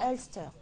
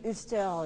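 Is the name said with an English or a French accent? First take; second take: English; French. First: The name is said with an English accent. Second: The name is said with a French accent. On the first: The speaker calls it right. "On préfère mettre l'accent anglophone" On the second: The speaker calls it wrong. "si tu dis Ulster, les gens ne sauront pas"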